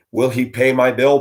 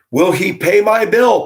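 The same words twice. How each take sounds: First: Said in the usual way. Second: High, loud mocking read of the caption; mocking high whine. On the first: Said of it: "Part one". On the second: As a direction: whine it up high like a needy plea. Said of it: "Part two".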